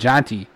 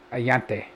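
First: The name is said with a J sound. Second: The name is said with a Y sound. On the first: This is how most people say the name. The speaker calls it right. "which everyone else calls it" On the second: Someone who cannot pronounce J says it this way. The speaker calls it wrong. "He Y's the J"

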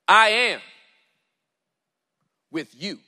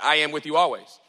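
First: It is read slowly, with weight. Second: It is read quickly, without pausing.

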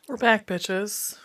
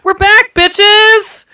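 First: It is said flatly, without much energy. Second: It is said with loud, enthusiastic energy.

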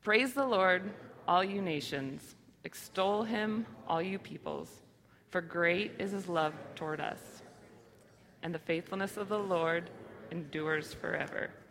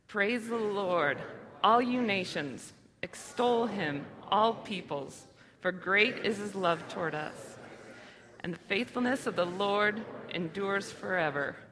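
First: It is read flatly, without much feeling. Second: It is read with heartfelt, meaningful feeling.

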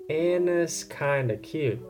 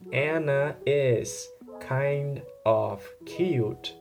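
First: The words are linked and contracted into one. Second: Each word is said separately and in full. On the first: "you contract the kind of" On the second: "instead of saying Anna is kind of cute"

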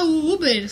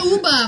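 First: The name ends in an 'er' sound. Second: The name ends in an open 'a' sound. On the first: This is how people commonly say the name. "mas a gente fala Uber" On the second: This is how the name is properly read. "Se lê Uba"

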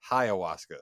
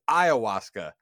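First: The word begins with a 'high' sound. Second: The word begins with an 'eye' sound. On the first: The speaker calls it wrong. "I have been mispronouncing" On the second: The speaker calls it right. "It is ayahuasca"

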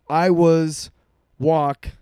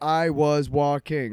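First: It is said choppy and broken up. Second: It is said smoothly, without breaks.

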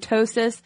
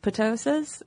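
First: The word begins with a silent p. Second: The word begins with a pronounced p.

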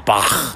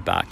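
First: The name ends in a harsh, throaty, spitting sound. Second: The name ends in a plain hard k sound. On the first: "I spit when I do that" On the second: "I actually say Bach"

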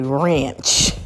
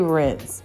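First: The word is said with an 'a' vowel, like ranch. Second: The word is said with a short 'i' vowel. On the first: This is how family members say it. "at times they would say ranch" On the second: This is the usual way to say it. "They wouldn't say rinse"

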